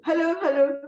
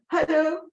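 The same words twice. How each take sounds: First: Raised, high call to get his attention; two bright, loud hellos. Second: High, louder hello with a rising end; lifted, questioning hello; calling out again. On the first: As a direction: call out to him across the room. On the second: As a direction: call him once more, insisting. Calling out a second time. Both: Retold or imitated.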